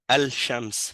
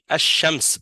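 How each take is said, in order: First: The l of the article is clearly pronounced. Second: The l merges into a doubled sh sound. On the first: The speaker calls it wrong. "on dit pas al-shams" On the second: The speaker calls it right. "on dit ash-shams"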